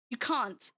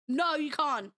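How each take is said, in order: First: "can't" said British, kɑ̃nt with a long back ah; "can't" as kɑ̃nt, broad British vowel; British accent on can't. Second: Said in the usual way. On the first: Shown as a demonstration. Streamer repeating to chat with a British "can't". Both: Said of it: "Did I hear an accent on can't".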